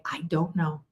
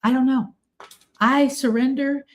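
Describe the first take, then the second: First: Quiet admission. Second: Lighter surrender. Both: Retold or imitated. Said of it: "if you say".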